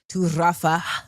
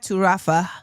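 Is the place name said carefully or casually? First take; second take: carefully; casually. First: The place name is said slowly and carefully. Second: The place name is said quickly and casually. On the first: The speaker calls it right. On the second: The speaker calls it wrong.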